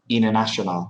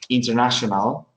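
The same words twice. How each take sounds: First: The T after the N is dropped. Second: The T after the N is clearly pronounced. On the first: "the T is not pronounced" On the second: "instead of saying international"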